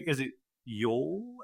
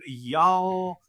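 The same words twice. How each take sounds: First: "Is it y'all?" asked very softly and slowly, y'all rounded like "yol"; imitating a British actor unsure how "y'all" goes; mock British attempt. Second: "Y'all" said softly and pitched up, drawn open like "yahl"; showing the right Southern "Y'all". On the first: British cast member asking the coach how to say it, hushed. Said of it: "And they're like". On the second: Retold or imitated. Southerner on set correcting British actors, soft demo. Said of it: "And I'm like".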